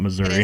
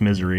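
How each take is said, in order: First: The name sounds like standard 'Missouri'. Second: The name sounds like the word 'misery'. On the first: The speaker calls it wrong. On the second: The speaker calls it right. "It's pronounced misery"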